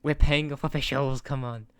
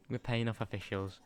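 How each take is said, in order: First: Much louder, higher hammed-up indignation; louder, higher mock protest; mock outraged shout. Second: Said in the usual way. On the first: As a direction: shout it like a cheated fan, half joking. Mock outrage at game referee.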